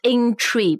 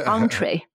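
First: The first syllable sounds like 'in'. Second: The first syllable sounds like 'en'. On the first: The speaker calls it wrong. "It's not intree, 不像那个 inter" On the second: The speaker calls it right. "it's entree"

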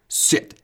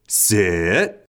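First: The pitch falls on the word. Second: The pitch rises on the word. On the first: This is the first time the command is given. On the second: The command is being repeated because the dog did not obey.

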